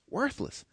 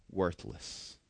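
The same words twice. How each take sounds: First: Said in the usual way. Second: Hushed whisper. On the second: Acted. Pastor reading James to congregation, whispered close. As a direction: drop to a breathy whisper on the last word.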